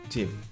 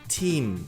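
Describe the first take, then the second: First: The vowel is short and clipped. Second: The vowel is long and held. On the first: The speaker calls it wrong. "a pronúncia não é team, team, curtinho" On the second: The speaker calls it right. "A pronúncia é com I longo, agudo"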